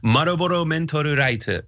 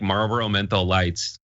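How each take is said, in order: First: It is said in an imitated Japanese accent. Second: It is said in a plain American English accent. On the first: Staff in Japan will understand it. The speaker calls it right. "try to do like a Japanese accent" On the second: Staff in Japan may not understand it. The speaker calls it wrong. "you can't order like"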